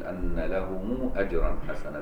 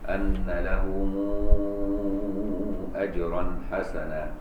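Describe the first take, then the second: First: The vowel after lahum is short, not stretched. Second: The vowel after lahum is stretched very long. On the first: "بغير مد" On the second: "مد ست حركات"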